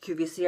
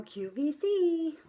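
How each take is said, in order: First: Said in the usual way. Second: Q V C high and stretched out, held on the final C; sing-song "Q V C" with a long high C; drawn-out Q V C. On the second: Shown as a demonstration. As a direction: draw out Q V C in a high pitch. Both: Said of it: "I know how to say".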